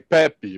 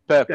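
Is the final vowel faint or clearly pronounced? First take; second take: clear; faint. First: It has a Brazilian Portuguese accent, with a clear final vowel. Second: It has a European Portuguese accent, with a faint final vowel.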